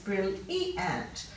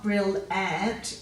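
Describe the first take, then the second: First: The middle 'i' sound is clearly pronounced. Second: The middle 'i' sound is dropped. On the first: The speaker calls it right. "but you still need it" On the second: The speaker calls it wrong. "quite often that it sound is lost"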